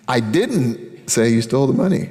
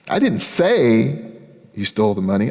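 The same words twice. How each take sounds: First: The word didn't carries the main stress. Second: The word say carries the main stress. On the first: The speaker denies having said it at all. "I don't know why you think I did. I didn't" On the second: The speaker only thought it. "I was thinking it. I didn't tell anybody"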